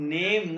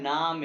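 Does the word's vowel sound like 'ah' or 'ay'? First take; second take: ay; ah. First: The vowel sounds like English 'ay'. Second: The vowel sounds like a long 'ah'. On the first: The speaker calls it wrong. "नेम नहीं है" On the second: The speaker calls it right. "नाम है"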